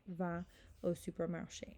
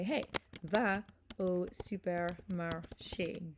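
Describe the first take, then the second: First: Said in the usual way. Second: Slow, carefully spaced French command; deliberate, drawn-out classroom demonstration. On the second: Shown as a demonstration. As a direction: give the French order word by word for learners. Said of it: "make that a command".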